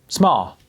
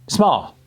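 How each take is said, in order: The two takes are said the same way.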